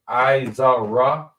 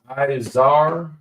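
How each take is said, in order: First: The word ends with a final ah vowel. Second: The word ends on the r sound. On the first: The character is pronounced standing alone. The speaker calls it wrong. "instead of" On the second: The two characters are joined. The speaker calls it right. "The ah drops off"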